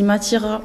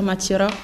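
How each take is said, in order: First: The R is a throaty French R. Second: The R is rolled with the tongue. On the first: This is the mainland French way of saying it. "je dis Matira en français" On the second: This is the Tahitian way of saying it. "à Tahiti, on va dire Matira, on va rouler le R"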